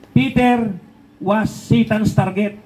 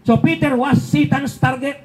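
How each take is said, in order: First: Peter was Satan's target, stretched out slowly; slow emphatic restatement. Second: Said in the usual way. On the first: Shown as a demonstration. Preacher slowly repeating to his viewers, stressing it. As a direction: drag out each word so it sinks in.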